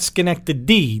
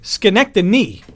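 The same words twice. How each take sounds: First: The name is said with a 'dy' sound. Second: The name is said with an 'ny' sound. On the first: The speaker calls it wrong. "not Schenectady, D-Y. Like do it yourself" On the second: The speaker calls it right. "N-Y, like New York"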